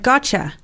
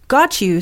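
First: The words blend into one with a 'ch' sound. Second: The two words are said fully and separately.

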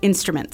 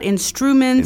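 First: No extra U vowel sounds in the middle. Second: An extra U vowel sounds in the middle. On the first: The speaker calls it right. "just take away the U there in the middle" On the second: The speaker calls it wrong. "not instruments"

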